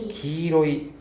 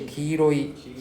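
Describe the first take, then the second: Both takes have the same delivery.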